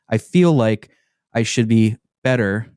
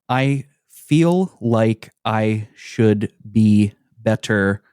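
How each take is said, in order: First: Sounds are dropped and the words run together. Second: Every sound is pronounced fully and separately. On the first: "We elide a lot of the sounds" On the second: "That is how that should be said"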